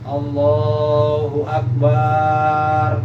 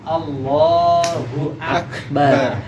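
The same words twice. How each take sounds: First: The final syllable bar is drawn out long. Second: The final syllable bar is kept short. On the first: The speaker calls it wrong. "Terus barnya juga nggak boleh dipanjangin" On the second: The speaker calls it right. "Jadi harus Allahu Akbar"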